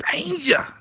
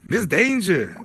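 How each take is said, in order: First: A sung-out high call. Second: Said in the usual way. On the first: Real, not acted. Host calls the guest up to the mic, calling out high. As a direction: call the name much higher, like across a room.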